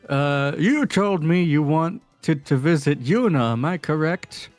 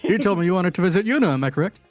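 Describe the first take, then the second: First: It is said at a normal speed. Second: It is said quickly.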